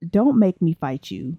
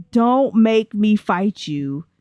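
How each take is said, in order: First: Said in the usual way. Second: Drawn-out, word-by-word mock threat; slow mock warning. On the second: Player warning a game character over mac and cheese, slow mock threat. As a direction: stretch out each word as a playful warning.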